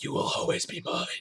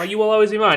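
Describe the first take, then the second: First: It is said in a dark, menacing tone. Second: It is said in a sweet, affectionate tone. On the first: It is a creepy threat. "it was in a font written like it looked like it was in blood" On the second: It is a loving declaration. "done in like pretty cursive with like a heart at the end"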